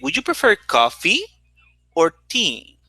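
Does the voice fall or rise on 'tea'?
fall. The voice rises on coffee and falls on tea. Coffee and tea are both offered. "Coffee goes up and tea goes down"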